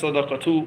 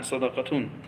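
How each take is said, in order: First: The word ends in a plain u vowel. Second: The word ends in a u vowel plus n. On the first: The word is a name that takes no nunation. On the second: The word is an ordinary noun that takes nunation.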